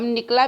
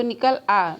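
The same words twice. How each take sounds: First: Said in the usual way. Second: "निकल" and "आ" as separate words; split into two words. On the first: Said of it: "हम निकला भी कह सकते हैं". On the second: Shown as a demonstration. Teacher contrasting with the joined word, separating "निकल आ". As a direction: keep "आ" from merging into "निकल". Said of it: "लेकिन उसको निकल आ".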